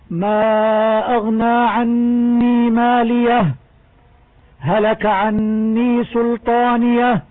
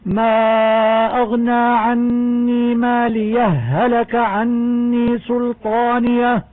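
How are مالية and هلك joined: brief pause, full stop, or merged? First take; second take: full stop; merged. First: The reciter stops fully after مالية before continuing. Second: The final h merges into the following h. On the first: "ويجوز الوقف عليها لأنها رأس آية" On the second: "ويجوز إدغامها بالهاء التي بعدها"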